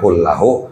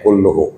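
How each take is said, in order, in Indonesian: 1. Vokal setelah L ganda adalah 'a'. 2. Vokal setelah L ganda adalah 'u'. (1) "kullahu bin nasbi dengan nasab berbaris fathah" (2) "dibaca dengan rofa kulluhu"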